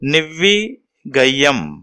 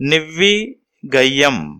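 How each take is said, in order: First: The vowel in the second syllable is long. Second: The vowel in the second syllable is long.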